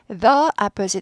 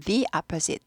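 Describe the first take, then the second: First: The word 'the' is pronounced 'thuh'. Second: The word 'the' is pronounced 'thee'. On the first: The speaker calls it wrong. "모음 앞에는 the opposite 아니고" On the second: The speaker calls it right. "the 발음이 납니다"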